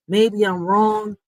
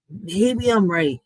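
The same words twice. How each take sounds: First: Maybe I'm wrong said slowly and deliberately; slow measured musing; slow, drawn out. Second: Maybe I'm right said very slowly with a falling end; slow knowing musing; slow, drawn out. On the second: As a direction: drag out Maybe I'm right even slower. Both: Real, not acted.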